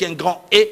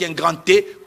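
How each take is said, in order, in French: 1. 'Grand' et la lettre se prononcent sans liaison en t. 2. Un son t fait la liaison entre 'grand' et la lettre. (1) "Je parle d'un État avec un grand E" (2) "comme pour dire qu'il y a une liaison"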